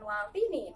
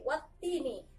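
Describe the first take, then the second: First: The t sound is short and single. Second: The t sound is doubled and held. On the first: The speaker calls it wrong. "bukan watini" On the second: The speaker calls it right. "tapi wattini. Jadi bertasdid ke huruf yang ada di depannya"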